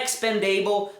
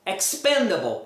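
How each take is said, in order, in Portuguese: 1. A terminação 'able' é tônica e plena. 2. A terminação 'able' é átona e reduzida. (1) "não é expendable" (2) "nunca vai ser a sílaba tônica"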